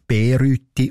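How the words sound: The first syllable is stressed with a long e. This is the local dialect form. "In der tätigen Mundart wird ... als Bereute ausgesprochen"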